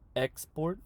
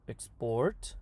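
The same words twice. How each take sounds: First: The stress is on the first syllable. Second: The stress is on the second syllable. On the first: It is used as a noun. "the noun will have the stress on the front" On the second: It is used as a verb. "the verb at the end"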